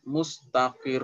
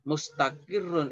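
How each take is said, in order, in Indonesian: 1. Kata ini berakhir dengan r yang ditekan. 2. Kata ini berakhir dengan akhiran un.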